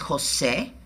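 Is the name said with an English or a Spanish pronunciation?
Spanish. It is said with a Spanish pronunciation. The speaker calls it right. "it deserves to be pronounced correctly"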